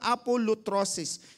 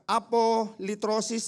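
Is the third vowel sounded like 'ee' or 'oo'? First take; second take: oo; ee. First: The third vowel sounds like 'oo'. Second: The third vowel sounds like 'ee'. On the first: "the pronunciation is yung Y is uh, uh, pronounced as letter U" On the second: "So sometimes uh, apolitrosis ang, ang binabanggit nila"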